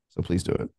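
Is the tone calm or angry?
calm. It is said in a calm, gentle tone.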